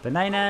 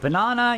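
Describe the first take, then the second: First: It is said with an American accent. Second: It is said with a British accent.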